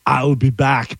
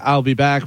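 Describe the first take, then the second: First: It is said forcefully, really hitting it. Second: It is said flatly and casually.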